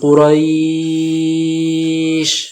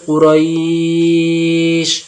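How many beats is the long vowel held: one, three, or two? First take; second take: three; two. First: The vowel before the final sound is held three beats. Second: The vowel before the final sound is held two beats. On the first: "তিন আলিফ দিতে পারেন" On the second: "দু আলিফ দিতে পারেন"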